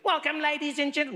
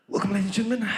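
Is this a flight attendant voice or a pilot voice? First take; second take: flight attendant; pilot. First: It is said in a flight attendant voice. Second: It is said in a deep pilot voice.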